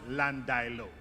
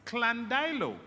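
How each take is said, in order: First: It begins with a plain L sound. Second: It begins with a K-L sound. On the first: It is the common local usage. "we in Jamaica call Landilo... represents an error of pronunciation" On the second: It follows a Welsh origin. "If the origin of that word comes from our Welsh heritage, then it is pronounced Clandilo"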